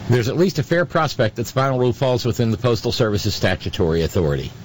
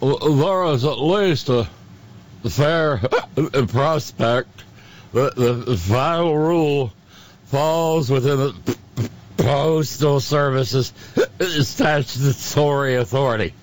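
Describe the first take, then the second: First: It is read in a normal sober voice. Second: It is read in a silly drunken voice.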